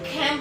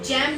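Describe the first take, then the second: First: The word begins with a harsh throaty kh sound. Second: The word begins with a soft j sound. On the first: The speaker calls it right. "तो आप उसे खैम पढ़ेंगे" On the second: The speaker calls it wrong. "जैम नहीं"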